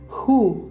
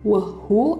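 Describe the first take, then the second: First: The initial W sound is silent. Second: The initial W sound is pronounced. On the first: The speaker calls it right. "W-nya tidak dibaca" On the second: The speaker calls it wrong. "bacanya bukan whu"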